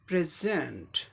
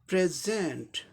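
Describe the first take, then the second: First: The stress is on the second syllable. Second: The stress is on the second syllable.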